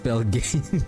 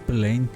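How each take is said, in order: First: The name is said with a g sound. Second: The name is said without a g sound. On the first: The speaker calls it right. "Basically, it's Pelgain" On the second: The speaker calls it wrong. "why am I keep on pronouncing that uh, ring uh, Pelane?"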